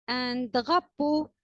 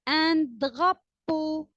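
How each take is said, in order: First: Said in the usual way. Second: Slow model word. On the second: Shown as a demonstration. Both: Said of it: "teacher models a word to repeat".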